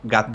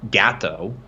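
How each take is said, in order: First: The first vowel sounds like a Spanish vowel. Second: The first vowel sounds like an English vowel. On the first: The speaker calls it right. "You have to say" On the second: The speaker calls it wrong. "you can't say gato"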